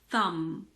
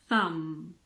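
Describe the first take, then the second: First: The word ends on the m sound. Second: The same.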